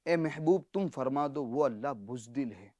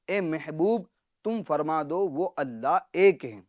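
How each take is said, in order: First: Hushed appalled. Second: Said in the usual way. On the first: Shown as a demonstration. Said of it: "اس کا ترجمہ کیا بنے گا؟". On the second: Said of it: "اس کا ترجمہ ہوتا ہے".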